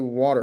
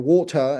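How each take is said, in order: First: It is said in an American accent. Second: It is said in a British accent. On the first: "people in America say" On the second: "people in Britain say"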